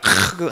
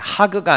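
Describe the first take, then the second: First: It begins with a harsh, throaty kh sound. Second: It begins with a soft, plain h sound. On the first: The speaker calls it right. "일부러 발음을 강조하기 위해서" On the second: The speaker calls it wrong. "하그가 아니라"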